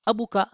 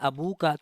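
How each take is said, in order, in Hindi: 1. 'ka' से पहले का स्वर छोटा है। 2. 'ka' से पहले का स्वर लंबा है। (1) "तो ये हो जाएगा गलत, ये वाला गलत है" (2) "वाव का इजाफा करना होगा"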